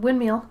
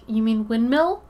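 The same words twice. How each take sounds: First: "Windmill" ending like "meal"; "windmeal" pronunciation. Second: "windmill" with a short i in "mill"; standard windmill. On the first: Shown as a demonstration. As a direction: say "Windmill" with ee in the last syllable. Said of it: "I said". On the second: Retold or imitated. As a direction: ask it with "windmill" ending in a crisp short-i "mill". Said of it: "people have been like".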